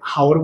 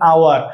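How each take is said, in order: First: The word begins with an audible h sound. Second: The word begins with a vowel, no h. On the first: The speaker calls it wrong. "এই আপনি কখন এটাকে হাওর বলছেন?" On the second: The speaker calls it right. "না, এটাকে বলেন আওয়ার"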